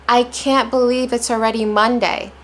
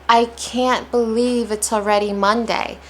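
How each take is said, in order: No difference in how they are said.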